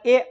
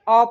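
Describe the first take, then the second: First: The vowel is a full 'ay' sound. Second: The vowel is a short weak 'uh' sound. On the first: The speaker calls it wrong. "अगर ए आप कह रहे हैं तो आप गलत कह रहे हैं" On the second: The speaker calls it right. "अ पढ़ा जाता है"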